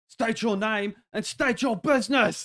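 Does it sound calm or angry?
angry. It is said more aggressively, angrier.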